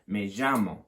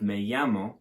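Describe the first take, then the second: First: The 'll' is said as a harder j sound. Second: The 'll' is said as a soft y sound. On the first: "quite often you hear it pronounced as a j sort of sound" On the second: "don't pronounce it as a y at all"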